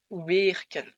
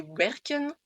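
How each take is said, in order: First: WERKEN with the first E stretched into "ay"; wrong long E. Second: WERKEN with a short, open first E. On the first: Teacher showing what not to say, long E in "werken". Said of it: "et pas werken". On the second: Teacher showing the correct Dutch word, short E in "werken". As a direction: say "werken" with a brief "eh" in the first syllable. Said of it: "C'est pour ça qu'on dit". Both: Shown as a demonstration.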